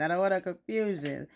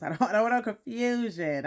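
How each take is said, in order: First: Said in the usual way. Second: Laughing. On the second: Real, not acted. Joking aside about husband.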